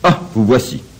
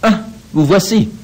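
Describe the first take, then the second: First: It sounds angry and annoyed. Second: It sounds ironic and superior. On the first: The speaker is upset the visitor returned. "je lui montre combien je suis fâché de son retour" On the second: The speaker has little interest in the visitor. "mon ironie supérieure trahit le peu d'intérêt"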